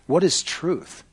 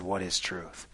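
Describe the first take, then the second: First: Raised-pitch rhetorical challenge; dismissive retort. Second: Low, soft, falling question; hushed quoted question. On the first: Acted. Pilate answering Jesus, dismissive rhetorical question. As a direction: toss the question back as a challenge. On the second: Retold or imitated. Preacher recalling Pilate's words to Jesus, hushed and low. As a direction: let the question sink away quietly.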